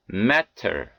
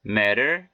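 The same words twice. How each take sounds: First: 'matter' with a clear hard T; unflapped T. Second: 'matter' with T as an R-like tap; American flapped T. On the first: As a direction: release the T in 'matter' fully. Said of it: "이렇게 발음해 틀린 것은 아니". ('matter'의 T를 또렷한 ㅌ로) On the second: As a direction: flap the T in 'matter'. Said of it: "연음 현상이 들어가서 이렇게". ('matter'의 T를 ㄹ처럼) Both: Shown as a demonstration.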